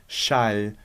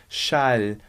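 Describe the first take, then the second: The two takes are said the same way.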